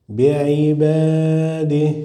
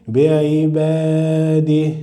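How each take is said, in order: The two takes are said the same way.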